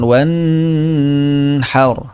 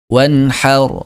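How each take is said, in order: First: The vowel is stretched out and held long. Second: The vowel is kept at its normal length. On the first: The speaker calls it wrong. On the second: The speaker calls it right.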